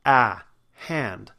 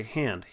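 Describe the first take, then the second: First: "Ah, hand" with a wide open front vowel; correct hand. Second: "hand" said with a half-closed, flat vowel; sloppy "hand"; lazy hand. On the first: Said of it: "don't pronounce correctly". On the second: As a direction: mimic the careless "hand". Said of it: "we sort of say hand". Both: Shown as a demonstration.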